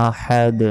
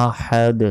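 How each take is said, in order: Both takes have the same delivery.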